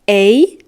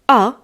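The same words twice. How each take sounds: First: The vowel sounds like the one in snake. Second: The vowel sounds like the one in father.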